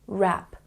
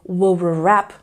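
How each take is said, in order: First: The word starts directly with the R sound. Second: A W sound is heard before the R. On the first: The speaker calls it right. "we focus on the R sound" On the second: The speaker calls it wrong. "we don't pronounce that W to say w-rap"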